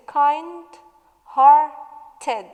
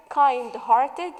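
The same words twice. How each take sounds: First: "kind-hearted" slow and loud as kind, har, ted; syllable by syllable. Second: Said in the usual way. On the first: Shown as a demonstration. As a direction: break "kind-hearted" into three firm beats with gaps. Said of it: "So it has". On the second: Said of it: "The word kind-hearted".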